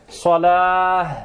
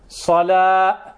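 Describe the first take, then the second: First: The word ends in an h sound. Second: The word ends in a t sound. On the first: It refers to prayer. The speaker calls it right. "antuq bilha" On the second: It refers to fire. The speaker calls it wrong. "Idha qulta salat, ma'na an-nar"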